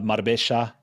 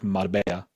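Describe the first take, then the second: First: The double L sounds like sh. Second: The double L sounds like y. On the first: "that j in Argentine Spanish turns to a sh" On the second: "pronounced like a y"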